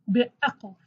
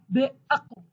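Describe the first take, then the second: First: Be'aql with a falling end. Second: Be'aql with a rising end. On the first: Teacher repeats be'aql for students, falling. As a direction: settle be'aql down at the close. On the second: Teaching a learner to say Be'aql, rising. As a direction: say Be'aql clearly, ending up. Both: Shown as a demonstration. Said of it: "you can pronounce it as a".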